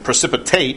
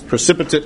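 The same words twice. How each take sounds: First: It is pronounced the way the verb is said. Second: It is pronounced the way the noun is said. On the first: It means to fall. "but precipitate, the verb" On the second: It names the solid that settles at the bottom. "Precipitate is a noun when you pronounce it like that"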